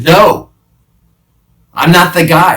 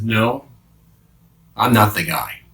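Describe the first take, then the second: First: High, loud panicked denial. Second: Said in the usual way. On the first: Acted. Peter denies the guard's charge, loud and high. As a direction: shout it to push them away. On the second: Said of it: "I lashed out with embarrassment".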